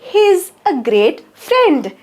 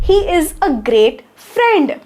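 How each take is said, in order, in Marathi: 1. 'He is' एका लहान अक्षरात आखूड होते. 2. 'He is' दोन शब्द म्हणून पूर्ण म्हटले जाते.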